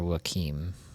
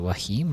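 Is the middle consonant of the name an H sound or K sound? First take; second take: K sound; H sound. First: The middle consonant is a hard K sound. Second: The middle consonant is a soft H sound. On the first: "or as a K?" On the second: "Do you pronounce the Q as a H"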